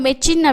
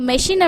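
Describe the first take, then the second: First: The middle consonant is a 'ch' sound. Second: The middle consonant is an 'sh' sound. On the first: The speaker calls it wrong. "மெச்சின் அப்படின்னு சொல்ல முடியாது" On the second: The speaker calls it right. "மெஷின் அப்படின்னா தான் அது கரெக்டாக இருக்கும்"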